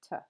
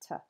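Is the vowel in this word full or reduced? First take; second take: reduced; reduced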